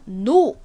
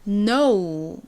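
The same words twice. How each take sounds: First: The vowel is a plain, flat o sound. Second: The vowel glides from o toward u. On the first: The speaker calls it wrong. "한국식으로는 그냥 no 어, 이렇게 많이들 이 말씀을 하시지만" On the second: The speaker calls it right. "진짜 영어 발음은 no 라고 발음이 난다"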